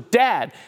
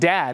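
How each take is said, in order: First: It is said louder. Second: It is said at normal loudness.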